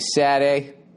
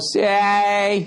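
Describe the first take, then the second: First: A real, less exaggerated Boston accent shapes the word. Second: A heavily exaggerated Boston accent clips the word. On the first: It is how some people really talk. "there's some people who say Saturday" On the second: It is a joke version. "it's an exaggeration of Saturday"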